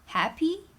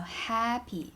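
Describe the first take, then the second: First: The first syllable does not stay high and level. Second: High level first syllable, then a neutral second. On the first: "And it's different tones" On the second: "it's a first tone and neutral tone"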